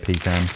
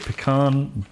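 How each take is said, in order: First: It is said the English way. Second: It is said the American way.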